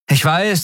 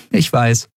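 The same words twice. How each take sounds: First: Put-on much higher, hurried boy's voice; a boy bluffing too fast; nervous young Miko. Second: Slightly higher, light woman's voice; a touch sheepish; captain admitting it. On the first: Miko bluffing to the captain, high and nervous. Miko admits his looks. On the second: Acted. Endriel answering Nelen, light and sheepish.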